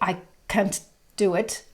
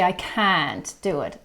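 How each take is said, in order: First: The vowel in can't is short and closed. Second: The vowel in can't is wide and open. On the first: The speaker calls it wrong. "it is very wrong" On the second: The speaker calls it right. "you open your mouth quite a bit"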